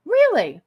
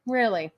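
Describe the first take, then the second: First: High, loud disbelieving Really; surprised. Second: Said in the usual way. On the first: Real, not acted. Streamer reads a comment, surprised. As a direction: snap back in disbelief.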